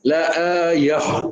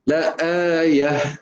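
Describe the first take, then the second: First: The final h sounds heavy and rough. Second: The final h sounds light and smooth. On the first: The speaker calls it wrong. "kita bawa ke dada ... Dia bunyi kasar" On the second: The speaker calls it right. "ha datang ayah dari rongga mulut"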